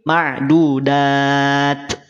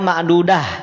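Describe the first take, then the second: First: The word ends with a breathy t sound. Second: The word ends softly with an h sound. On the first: The speaker calls it right. "tapi ma'dudat. Ada ada percikan nafasnya" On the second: The speaker calls it wrong. "tidak ma'dudah. Awas"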